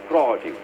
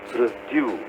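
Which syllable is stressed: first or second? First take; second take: first; second. First: The stress is on the first syllable. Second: The stress is on the second syllable. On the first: It is the noun meaning things grown. "There the difference is in the stress" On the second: It is the verb meaning to make or grow. "The stress is on due"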